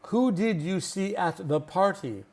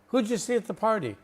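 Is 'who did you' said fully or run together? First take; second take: fully; run together. First: Each word of 'who did you' is said separately. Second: 'Who did you' is run together into 'huja'. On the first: The speaker calls it wrong. "We will never say that" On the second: The speaker calls it right. "we would pronounce it as a native speaker"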